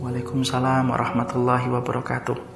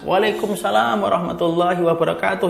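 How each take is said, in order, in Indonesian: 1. Diucapkan dengan pelan dan lembut. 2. Diucapkan dengan keras dan jelas. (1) "Mereka menjawabnya pelan-pelan" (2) "Maka mereka baru menjawab keras"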